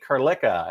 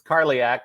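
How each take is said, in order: First: The name ends with a 'ka' sound. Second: The name ends with an 'ak' sound. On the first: The speaker calls it wrong. "they're like J P Carlicka" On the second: The speaker calls it right. "it's Carliac"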